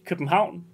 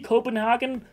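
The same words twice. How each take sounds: First: The name is said with a Danish pronunciation. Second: The name is said in an odd, playful way. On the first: "in Danish" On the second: "That's just a funny way to say it"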